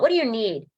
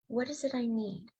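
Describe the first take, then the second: First: It is asked impatiently, without compassion. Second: It is asked gently, with compassion.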